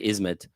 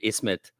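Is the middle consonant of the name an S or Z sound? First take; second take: Z; S. First: The middle consonant is a Z sound. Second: The middle consonant is a plain S sound.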